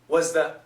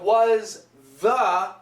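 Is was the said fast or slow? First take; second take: fast; slow. First: It is said quickly and the th fades. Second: It is said slowly with a clear th.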